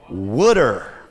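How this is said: It is said in a New Jersey accent.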